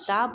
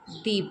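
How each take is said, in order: First: The word ends in a short 'uh' vowel. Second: The word ends in a long 'ee' vowel. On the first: The next word starts with a consonant sound. "If द next word start with a consonant sound, तब जो है आप दा का यूज़ करेंगे" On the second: The next word starts with a vowel sound. "If द next word start with vowel sound ... then will we यूज दी"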